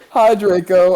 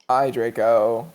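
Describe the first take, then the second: First: The greeting sounds cheerful and happy. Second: The greeting sounds gloomy and depressed. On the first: The speaker calls it wrong. "you said it too happily" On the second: The speaker calls it right. "Yes, it's beautiful"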